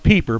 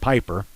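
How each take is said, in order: First: The name is said with German pronunciation. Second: The name is said with English pronunciation. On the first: The speaker calls it right. "It's supposed to be Pieper" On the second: The speaker calls it wrong. "I hear everybody saying Piper"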